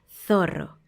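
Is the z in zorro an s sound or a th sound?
th sound. The z sounds like th, tongue between teeth. "ellos dicen zorro"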